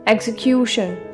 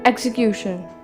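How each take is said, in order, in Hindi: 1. Stress बीच के syllable पर पड़ता है। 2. स्ट्रेस बीच के सिलेबल पर पड़ता है।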